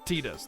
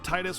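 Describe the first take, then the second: First: The name is said the Japanese phonetic way. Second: The name is said the usual English way.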